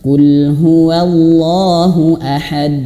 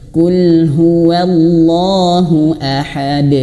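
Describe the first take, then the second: First: The final bounce on ahad is held back. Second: The final bounce on ahad flows out freely. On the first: The speaker calls it wrong. "jangan sampai mantulnya tertahan ya" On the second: The speaker calls it right. "tapi langsung saja mengalir pantulannya"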